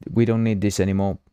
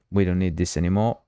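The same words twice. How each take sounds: The two takes are said the same way.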